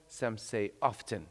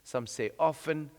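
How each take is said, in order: First: Often said as OFF-ten, the t sounded; often pronounced OFF-ten, t pronounced. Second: Often said as OFF-en, the t silent; often pronounced OFF-en, silent t; often without the t. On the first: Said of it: "there are different ways of saying things". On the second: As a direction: say often with no t sound, OFF-en. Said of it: "Like in English". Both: Shown as a demonstration.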